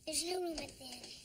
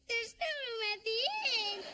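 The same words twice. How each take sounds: First: It is said flatly, with little feeling. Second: It is said with more feeling.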